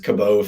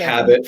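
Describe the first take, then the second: First: The final T sound is left silent. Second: The final T sound is clearly pronounced. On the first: "I go with the silent T" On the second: "we'll stick with Cabot for now"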